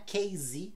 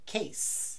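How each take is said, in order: First: The final consonant is a buzzing Z sound. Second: The final consonant is a hissing S sound. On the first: The speaker calls it wrong. "o estojo não é case" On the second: The speaker calls it right. "é case"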